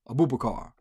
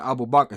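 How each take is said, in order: First: The name has anglicized sounds with an added vowel. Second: The name has its original Arabic sounds. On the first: This is how someone else mispronounced the name. The speaker calls it wrong. "he said" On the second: This is how the name should be said. The speaker calls it right. "instead of saying"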